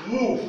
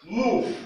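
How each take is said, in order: First: "Move" higher and louder, clipped short "moov"; model word move. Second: "Move" said higher and louder, as "moov"; model word move. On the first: Teacher repeating the word for learners. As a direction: say "Move" quick and firm. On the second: Teacher modelling the word for learners. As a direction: say "Move" with a long "oo". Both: Shown as a demonstration. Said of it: "Regardez ce mot".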